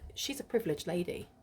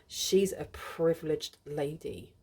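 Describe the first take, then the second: First: It is said in a sincere, admiring tone. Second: It is said in a scornful, disdainful tone. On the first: She is fortunate to live the life she does. "She's really privileged, you know, to live the life that she does" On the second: She is spoiled and resented for it.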